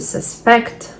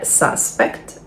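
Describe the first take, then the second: First: The stress is on the second syllable. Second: The stress is on the first syllable. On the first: It is a verb. "Дієслова, наголос на другий склад" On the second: It is a noun. "Іменник, наголос на перший склад"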